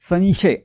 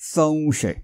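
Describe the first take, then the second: First: The nasal is a plain nasal consonant. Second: The nasal is a nasalized v glide. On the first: The speaker calls it wrong. "संशय असं नाही" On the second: The speaker calls it right. "अनुनासिक व ठेवलं"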